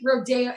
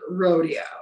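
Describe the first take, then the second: First: It is pronounced as in the street name. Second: It is pronounced as in the sport. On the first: It names the famous shopping street. "it's like Rodeo Drive" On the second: It names the cowboy event. "Versus rodeo. ... the activity"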